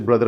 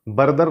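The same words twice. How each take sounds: First: ब्रदर with ब and र joined; no vowel after ब in ब्रदर; correct blend. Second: बरदर with a vowel after ब; बरदर with consonants pulled apart; wrong split blend. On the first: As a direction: start ब्रदर on a tight "br". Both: Shown as a demonstration. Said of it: "बरदर नहीं है".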